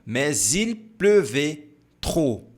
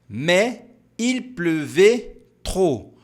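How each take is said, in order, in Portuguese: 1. Mais e il são unidas com um som de ligação. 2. Mais e il são ditas sem som de ligação.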